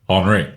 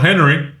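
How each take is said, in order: First: The name is pronounced the French way. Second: The name is pronounced the English way. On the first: The speaker calls it right. "that's how the French say it" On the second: The speaker calls it wrong. "Not Henry"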